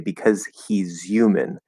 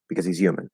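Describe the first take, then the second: First: It is said slowly with careful enunciation. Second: It is said fast with the H dropped. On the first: The speaker calls it wrong. "But if you're enunciating, you say because he's human. That's not right" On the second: The speaker calls it right. "At really fast speed, you just drop that H, connect the Z"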